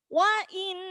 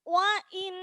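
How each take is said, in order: No difference in how they are said.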